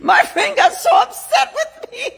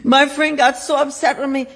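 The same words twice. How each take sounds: First: Loud laughing outburst, much higher; cracking up loudly while telling it; laughing shout. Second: Said in the usual way. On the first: Real, not acted. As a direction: shout it through a big laugh.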